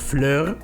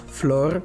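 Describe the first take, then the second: First: The vowel is an umlauted, rounded front vowel. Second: The vowel is a plain vowel without umlaut. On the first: The speaker calls it wrong. "not Fleur" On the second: The speaker calls it right. "it doesn't have an umlaut in German"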